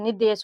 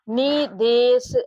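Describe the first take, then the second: First: The first vowel is short. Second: The first vowel is long. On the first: The speaker calls it right. "यहाँ पर इसका उच्चारण निदेश हो रहा है, तो न में ये छोटी ई की मात्रा लगेगी" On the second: The speaker calls it wrong. "निदेश ऐसे नहीं पढ़ रहे बच्चों"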